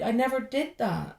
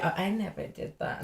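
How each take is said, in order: First: Said in the usual way. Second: Softer, airy fake-innocent claim; mock innocent denial. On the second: Singer mocks people who claim innocence, softer and fake-innocent. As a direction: play the hypocrite denying it lightly. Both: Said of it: "it's easy to say".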